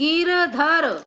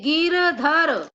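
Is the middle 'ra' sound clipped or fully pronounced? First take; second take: fully pronounced; fully pronounced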